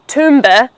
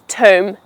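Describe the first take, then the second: First: A B sound and extra vowel end the word. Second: The word ends on M with no B. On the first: The speaker calls it wrong. "that's absolutely wrong" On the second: The speaker calls it right. "The B at the end happens to be silent"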